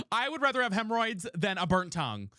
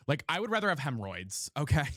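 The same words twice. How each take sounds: First: Laughing through the words. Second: Said in the usual way. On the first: Real, not acted. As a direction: crack up while repeating it. Repeats the line, second time laughing.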